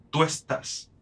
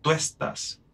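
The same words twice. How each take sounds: First: Tú estás run together in one syllable; vowels merged. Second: Tú estás said as one glide, tú and es fused; vowels merged. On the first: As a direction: slide tú into estás. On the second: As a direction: join tú estás without a break. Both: Shown as a demonstration. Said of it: "En vez de decir tú estás, digo".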